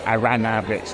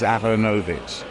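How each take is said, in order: First: The second syllable has an 'ah' vowel. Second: The second syllable has an 'oh' vowel. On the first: The speaker calls it wrong. "the only one I don't like is Aranovich, which I because I don't know where the A is coming from" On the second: The speaker calls it right. "if you pronounce it in the kind of vaguely fake Slavic way"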